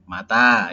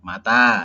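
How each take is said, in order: First: The second vowel is held long. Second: The same.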